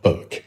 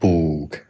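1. 这个元音很短，嘴巴小而放松。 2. 这个元音发音时嘴唇向前撅出。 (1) "非常小的小口" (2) "把嘴撅起来去说"

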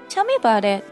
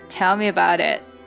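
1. 听起来真诚又好奇。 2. 听起来讽刺又带点冷嘲。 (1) "通常我真的是想要让你告诉我吧" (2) "我真正的意思可真不是让你告诉我"

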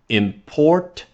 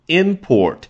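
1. 重音在第二个音节上。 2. 重音在第一个音节上。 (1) "import 表示那个动作去进口了什么什么东西" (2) "import 对于什么什么产品的进口啊"

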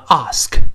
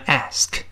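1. 这个元音是长而开口的 'ah'。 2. 这个元音是宽而扁的 'a'。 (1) "英式发音读成ask" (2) "美国人口型奔放一些，由R 变成A 读成ask"

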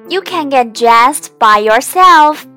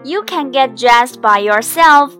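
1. 听起来是惊喜又开心的。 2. 听起来是坚定、就事论事的。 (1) "高兴之余啊，我们可以说" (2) "现在我们换个语气，比如孩子大了，应该自己穿衣服了。"

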